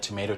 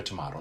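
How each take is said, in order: First: "tomato" with a long ay, to-MAY-to; American tomato. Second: "tomato." with a broad ah, to-MAH-to, softer; British tomato. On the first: Host contrasting pronunciations for listeners, to-MAY-to. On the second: Host mocking the British way, to-MAH-to. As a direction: say "tomato." as to-MAH-to, dropping low. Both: Shown as a demonstration. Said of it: "Like tomato, tomato".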